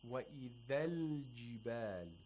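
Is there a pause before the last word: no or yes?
no. The words run together with no pause. The speaker calls it right. "It happens so quickly"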